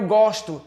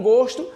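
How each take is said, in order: First: Gosto with an open "ó", as in "gósto". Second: Gosto with a closed "ô", as in "gôsto". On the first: Teacher showing students the verb in "eu gosto", open O in gosto. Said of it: "o meu som é aberto". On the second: Teacher showing students the noun in "bom gosto", closed O in gosto. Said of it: "o som é fechado". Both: Shown as a demonstration.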